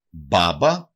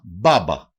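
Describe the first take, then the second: First: Μπάμπα again, slowly, b sounds clear; teacher repeats μπάμπα. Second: Μπάμπα said with a clear b at each start; teacher demo of μπάμπα; example word. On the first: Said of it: "Μπάμπα σημαίνει γιαγιά". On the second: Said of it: "Παράδειγμα". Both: Shown as a demonstration.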